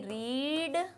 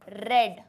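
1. स्वर लंबा है, जैसे "reed"। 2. स्वर छोटा है, जैसे "red"। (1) "इसे मैं कहूंगी रीड" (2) "रीड का पास्ट टेंस यही होता है ... इसे मैं कहूंगी रेड"

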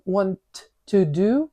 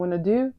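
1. Слово "to" вимовляється повністю і окремо. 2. "Want" і "to" зливаються в редуковане "wanna". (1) "ми хочемо почути to" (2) "Такого немає. Там wanna do"

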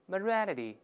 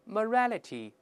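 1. 这个词读得快，t 要读成浊音。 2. 这个词读得慢，每个音都读全。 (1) "读快之后又会浊化了， 再快点" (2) "大声来一遍"

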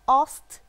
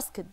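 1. تُنطق النهاية بصوت t. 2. تُنطق النهاية بصوت d. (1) "عمري ما هنطقها اصت صح لو فضلت مصر اني انطق الدي اللي في الاخر" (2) "الاي دي دي ليه انا بنطقها اسكد؟"

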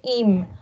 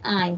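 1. La vocal es un sonido 'i' corto. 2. La vocal es un sonido 'eye' completo. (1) "hay unos que a veces dicen im" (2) "Recuerden la pronunciación I'm"

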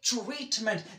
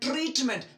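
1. tr ध्वनि ch ध्वनि के करीब लगती है। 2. tr की शुरुआत एक कठोर t ध्वनि से होती है। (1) "I will say" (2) "that's wrong"

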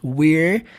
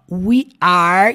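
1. É dito como uma sílaba curta e contraída. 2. É dito como duas palavras completas e separadas. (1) "nós pronunciamos we're" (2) "isso aqui é uma contração de we are"

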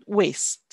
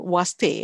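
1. Kata itu diucapkan dalam satu suku kata. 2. Kata itu terbagi menjadi dua suku kata. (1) "but waste" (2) "I don't want to hear anymore was they"

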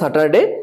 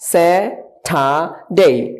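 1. t টি অল্পপ্রাণ, এতে শ্বাস নেই। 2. t টি মহাপ্রাণ, একটু শ্বাস বের হয়। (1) "আমরা আগে স্যাটারডেকে বলতাম স্যাটারডে" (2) "but now it will be Saturday. ... টি এর উচ্চারণ কি হবে? ঠি হবে।"

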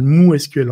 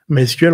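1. La première syllabe se prononce comme 'moo'. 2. La première syllabe se prononce comme 'my'. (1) "Le nom de la base de données s'appelle MooSQL en réalité" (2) "c'est la prononciation américaine"

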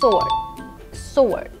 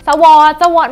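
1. เสียง w เงียบหลัง s ค่ะ 2. เสียง w ออกเสียงหลัง s ค่ะ (1) "ต้องออกเสียงว่า ... เสียง w อ่ะมันหายไป" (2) "สวอดไม่ใช่ค่ะ"

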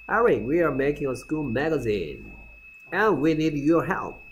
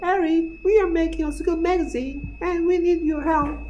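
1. 평소 목소리로 말하고 있어요. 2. 꾸민 여자아이 목소리로 말하고 있어요.

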